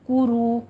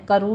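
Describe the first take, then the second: First: The first vowel is said with rounded lips. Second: The first vowel is open and unrounded. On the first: The speaker calls it right. "होंठों को गोल कीजिए" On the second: The speaker calls it wrong. "करू नहीं कहना है"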